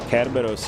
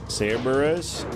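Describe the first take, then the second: First: The name begins with a k sound. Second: The name begins with an s sound. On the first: This is the original Greek form of the name. "the like actual name if we're going Greek" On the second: This is the English form of the name. "that's the English American way"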